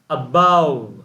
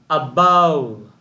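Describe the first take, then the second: Both takes have the same delivery.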